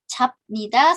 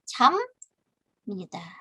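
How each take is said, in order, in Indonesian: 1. Konsonan akhirnya adalah bunyi b biasa. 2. Konsonan akhirnya adalah bunyi m. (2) "Biepnya bertemu dengan nien"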